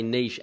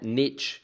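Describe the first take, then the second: First: The word ends with a soft 'sh' sound. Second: The word ends with a 'tch' sound. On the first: The speaker calls it right. "I'm very pleased that you also say niche" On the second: The speaker calls it wrong. "not niche ... There is no T in the word niche"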